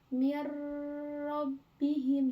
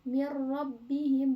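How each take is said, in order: First: A nasal hum is held before the r. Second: It goes straight into r without nasal hum. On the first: The speaker calls it wrong. "bukan mir rabbihim" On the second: The speaker calls it right. "Jadi nggak di nggak didengungkan"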